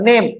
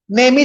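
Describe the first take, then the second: First: "नेम" ending on the m; silent final E. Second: "नेम ही" run together as nay-mee; wrong sounded final E. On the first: Teacher models the silent ending, "नेम" ending on m. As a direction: say "नेम" as one syllable, no vowel after m. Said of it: "आखिर का इन्हें पढ़े अपन". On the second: Teacher shows what nobody says, "नेम ही" as nay-mee. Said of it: "तो नहीं बोलते ना अपन". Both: Shown as a demonstration.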